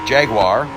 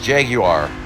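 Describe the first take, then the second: First: It is said without the British pronunciation. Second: It is said with the British pronunciation. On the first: The speaker calls it wrong. "is what people will say" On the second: The speaker calls it right. "more of the British pronunciation"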